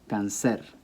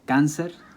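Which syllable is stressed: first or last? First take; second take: last; first. First: The stress is on the last syllable. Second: The stress is on the first syllable. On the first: The speaker calls it wrong. "it should be pronounced cáncer" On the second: The speaker calls it right. "The word is pronounced cáncer after the English"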